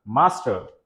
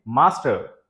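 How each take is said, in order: First: मास्टर with a clear R at the end; American pronunciation. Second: मास्टर with no R sound, "maa-stuh"; British pronunciation. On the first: Teacher contrasts the American मास्टर for students. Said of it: "American में आर बिल्कुल clear and loud". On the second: Teacher shows the British मास्टर to students. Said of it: "British में आ जो है वो H sound में". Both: Shown as a demonstration.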